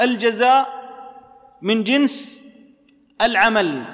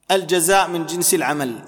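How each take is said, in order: First: الجزاء من جنس العمل said slowly, each word set apart by pauses; slow spaced maxim. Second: Said in the usual way. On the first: Shown as a demonstration. Preacher spells out the rule to his audience, slow and spaced. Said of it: "لكن في كل معاملاتك". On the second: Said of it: "استصحب قاعدة جليلة في الشرع".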